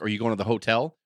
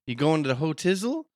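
First: Said in the usual way. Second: Hotel turned into "hotizzle"; slangy question, "hotizzle" with izzle replacing the end of hotel; carny talk. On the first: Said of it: "that would just be real quick". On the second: Retold or imitated. Wrestler hiding plans from fans, "hotizzle" in carny talk. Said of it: "they used to talk like that around fans".

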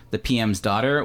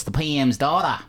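First: Said in the usual way. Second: Hammed-up bad Australian accent, higher; horrible Australian accent. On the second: Host mimicking an Australian show title, bad Australian accent. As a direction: put on a bad Aussie accent, dropping the final R. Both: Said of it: "sorry about my horrible Australian accent".

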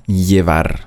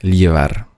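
First: Llevar starting with a plain y sound; double L as J. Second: Llevar starting with an l-y glide; double L as LJ. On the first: Teacher showing the usual double L, llevar with a J sound. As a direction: say llevar as "jevar". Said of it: "Doppel-L wird also ausgesprochen wie ein J". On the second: Teacher showing a regional Spanish variant, Llevar with LJ. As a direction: say Llevar as "ljevar". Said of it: "wird es ausgesprochen wie L J". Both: Shown as a demonstration.

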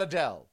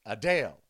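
First: Adele said as uh-DELL; short-E pronunciation. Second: Adele said as uh-DALE; long-A pronunciation. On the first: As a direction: say Adele ending like bell. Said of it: "It's not [name]". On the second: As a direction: lower Adele rhyming with pale. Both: Shown as a demonstration.

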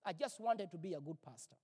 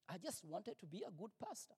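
First: Said in the usual way. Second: Much softer, rueful repeat; soft echo. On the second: Real, not acted. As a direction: let the line fall away, ashamed.

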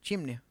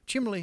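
First: Said in the usual way. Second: Chimley said with an l in place of the n, slightly higher. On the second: Shown as a demonstration. Mimicking how the stepdad says chimney, with an l. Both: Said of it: "my stepdad says chimley".

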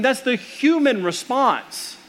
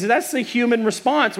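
First: Human stretched slowly and higher, falling at the end; that's the "human" response, weighted and slow; stress on human. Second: Said in the usual way. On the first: Shown as a demonstration. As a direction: lean on "human", slow and raised.

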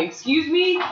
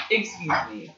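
First: High, rising disbelief; incredulous. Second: Deadpan. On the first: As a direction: ask it in outraged disbelief. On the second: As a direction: say it dry and unimpressed. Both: Real, not acted. Outraged at a squash match.

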